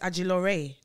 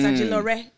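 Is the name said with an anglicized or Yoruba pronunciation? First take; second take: Yoruba; anglicized. First: The name has a Yoruba pronunciation. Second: The name has an anglicized pronunciation. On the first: This is the name's real pronunciation. The speaker calls it right. "my name is actually" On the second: This is how other people commonly say the name. The speaker calls it wrong. "people like to say it's"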